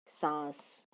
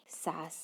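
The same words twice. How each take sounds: First: सांस with the aa nasalised through the nose; nasal vowel. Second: सास said with a plain, non-nasal aa; सास with the vowel kept clean, no air through the nose; no nasal sound. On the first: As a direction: sound the nasal in सांस clearly. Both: Shown as a demonstration. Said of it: "अब अनुनासिक ध्वनियाँ ... अर्थ बदल देते हैं".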